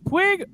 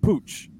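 First: The name ends with a hard g sound. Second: The name ends with a ch sound. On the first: This is the common way people say it. "so it's Puig" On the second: The player himself says it this way. "but he says Pooch"

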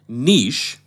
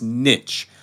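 First: The word is said with a French pronunciation. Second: The word is said with an English pronunciation. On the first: This is a more recent pronunciation that became accepted. "another pronunciation that has been accepted for the last 50 to 60 years" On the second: This is the long-established traditional pronunciation. "the correct pronunciation is niche"

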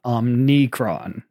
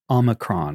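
First: The word has an N sound after the O. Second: The word has no N sound after the O. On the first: The speaker calls it wrong. "It's not Omnicron" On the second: The speaker calls it right. "There's no N, it's Omicron"

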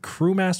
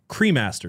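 First: The first syllable sounds like 'crew'. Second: The first syllable sounds like 'cre'. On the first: "So I'm saying it wrong" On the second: "C-R-E Master"

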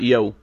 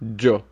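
First: The word begins with a y sound. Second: The word begins with a j sound. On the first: The speaker calls it wrong. "that's not yo" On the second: The speaker calls it right. "With like a jo. J"

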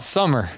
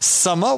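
First: It is said in his own American accent. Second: It is said in a put-on Austrian accent.

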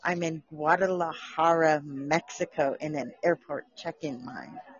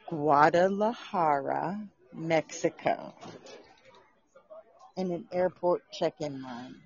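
First: It is said at normal speed. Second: It is said very slowly.

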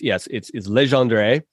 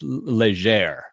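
First: The final 'dre' of the name is pronounced. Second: The final 'dre' of the name is silent. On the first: The speaker calls it right. "But it's Legendre" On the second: The speaker calls it wrong. "like almost the whole end, D-R-E at the end was silent"

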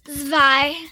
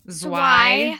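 First: The W is pronounced like an English V. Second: The W is pronounced like an English W. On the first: The speaker calls it right. "Which is why it's zwei" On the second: The speaker calls it wrong. "instead of zwei"

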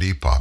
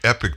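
First: The word sounds like 'epoch', ending in 'ock'. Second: The word sounds like 'epic', ending in 'ick'. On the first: This is the British way to say it. "I've always said epoch" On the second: This is the American way to say it. "I heard you say epic the other day"

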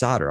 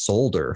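First: The L sound is left out of the word. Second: The L sound is pronounced in the word. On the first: The speaker calls it right. "why is there a silent L there?" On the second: The speaker calls it wrong. "I said that as solder for the longest time"

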